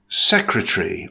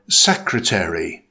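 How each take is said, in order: First: Secretary in three syllables, SEK-ruh-tree; British "Secretary", first syllable stressed, middle vowel dropped; British pronunciation. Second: Secretary in four syllables, SEK-ruh-tair-ee; American "secretary", first syllable stressed, -tary fully voiced; American pronunciation. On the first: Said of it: "In British English". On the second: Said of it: "In American English". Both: Shown as a demonstration.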